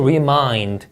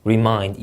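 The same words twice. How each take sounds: First: "remind" stressed on mind, slow; second-syllable stress. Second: "remind" with stress on mind; second-syllable stress. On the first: Teacher stressing the second syllable of remind. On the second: Teacher repeating remind with second-syllable stress. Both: Shown as a demonstration. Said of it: "이음절 강세가 되겠고요".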